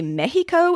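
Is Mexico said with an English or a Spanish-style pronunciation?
Spanish-style. It is said with a Spanish-style pronunciation. "it would probably sound a little odd for me to say Mexico"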